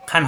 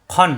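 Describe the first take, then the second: First: খান with an open "aa"; thin the vowel to "aa" in খান; wrong open vowel. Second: খন thick, with a rounded "o"; heavy rounded vowel. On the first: Teacher shows the mistake, খান with open "aa". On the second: Teacher models tanween, খন thick and rounded. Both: Shown as a demonstration. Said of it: "খান হবে না".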